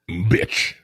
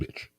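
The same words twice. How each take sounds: First: It is said with a deep, booming voice. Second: It is said softly, without much bass.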